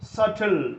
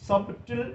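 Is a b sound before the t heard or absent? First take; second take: absent; heard. First: No b sound is heard before the t. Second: A b sound is heard before the t. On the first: The speaker calls it right. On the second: The speaker calls it wrong.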